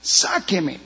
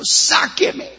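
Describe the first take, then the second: First: The same plea dropping softer and falling; a drowning man pleading weakly as his strength goes; softer, falling second "sáqueme"; desperate plea, fading. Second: Sudden high cry for help; a drowning man yelling to be pulled out; high, rising, panicked cry of "Sáqueme"; desperate plea. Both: Pretend. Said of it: "no diga desesperado".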